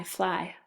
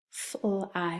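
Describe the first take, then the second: First: Said in the usual way. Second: "fl-I" as separate f, l and long i; tapped out. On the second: Shown as a demonstration. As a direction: break "fl-I" into three sounds. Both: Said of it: "have you tap it out".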